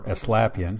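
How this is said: The name is said with a relaxed English pronunciation.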